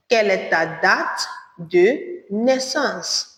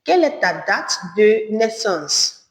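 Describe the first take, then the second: First: De naissance drawn out slowly; slow repeat. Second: Said in the usual way. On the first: Shown as a demonstration. Teacher repeats the question slowly for learners. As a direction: stretch de naissance slowly, syllable by syllable. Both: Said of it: "Or you say".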